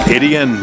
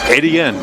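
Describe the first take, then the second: First: The name is said as 'Etienne'. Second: The same.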